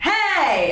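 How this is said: The shout is wide, open and low. The speaker calls it right. "It's wide, it's open, it's kind of tongue depressing"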